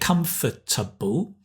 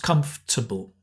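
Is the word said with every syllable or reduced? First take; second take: every syllable; reduced. First: Every syllable is pronounced separately and fully. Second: The middle is squeezed, f and t run together. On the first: "we can say comfortable" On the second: "normally the f just becomes comfortable"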